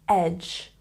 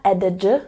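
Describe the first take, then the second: First: No separate D sound is pronounced before the ending. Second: An extra D sound is pronounced before the ending. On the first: The speaker calls it right. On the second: The speaker calls it wrong.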